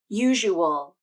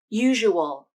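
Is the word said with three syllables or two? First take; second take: three; three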